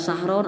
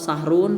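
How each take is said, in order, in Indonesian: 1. Kata itu berakhir dengan vokal o diikuti n. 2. Kata itu berakhir dengan vokal u diikuti n. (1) "tidak dibaca sahron" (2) "atau sahrun"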